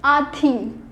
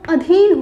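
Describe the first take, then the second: First: आधीन said with a long आ at the start; wrong spelling read out. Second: अधीन said with a short अ at the start; correct pronunciation. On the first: (आधीन लंबे आ के साथ) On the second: (अधीन छोटे अ के साथ) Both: Shown as a demonstration. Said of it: "अधीन कोई शब्द नहीं".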